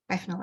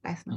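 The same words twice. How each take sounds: First: Bethnal as "Befnal", with f for th; th-fronting. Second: Said in the usual way. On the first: Shown as a demonstration. Lecturer showing a Cockney example, th-fronting. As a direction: put an f in the middle of Bethnal, softly. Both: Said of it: "you have f instead of".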